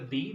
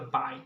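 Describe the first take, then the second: First: The vowel sounds like the letter name B. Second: The vowel sounds like the word 'by'. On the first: The speaker calls it wrong. "this is not the B" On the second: The speaker calls it right. "this is the bi"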